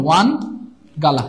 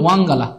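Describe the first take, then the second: First: ওয়ান said with a plain n ending, then গালা; pronounced wan gala. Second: ওয়াং said with a nasal ng ending before গালা; pronounced wang gala. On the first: Teacher showing students one way to say ওয়ান গালা, carefully. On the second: Teacher showing students the other way to say ওয়াং গালা, carefully. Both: Shown as a demonstration. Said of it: "উচ্চারণটা এমন হবে".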